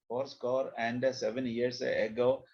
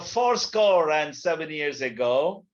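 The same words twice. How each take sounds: First: It is read in a flat, boring way. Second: It is read in an expressive, lively way.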